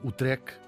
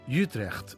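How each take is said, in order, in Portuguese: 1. É pronunciado com a pronúncia portuguesa. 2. É pronunciado com uma pronúncia não portuguesa.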